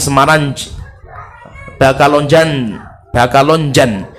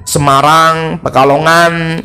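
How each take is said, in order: First: Imitated Arab accent, "Semarang" ending in a plain n, "Bakalonjan" with B and j. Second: Said in the usual way. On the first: Shown as a demonstration. Teacher imitates Arabs saying Indonesian town names, Arab accent. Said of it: "Mereka ngomongnya". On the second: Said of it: "kalau mereka pengen ngomong ngan".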